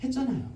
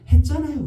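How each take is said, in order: First: 했잖아요 said much higher but softer, a sulky falling whine; high, softer sulky child. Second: 했잖아요 yelled much higher and louder, falling at the end; a fed-up kid shouting back 했잖아요 at mom; angry child shout. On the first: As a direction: repeat the kid's 했잖아요 as a quieter pouting echo. (높고 작게 투덜대는 아이) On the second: (엄마에게 화내며 소리치는 아이) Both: Retold or imitated. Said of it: "아이가 화를 내면서".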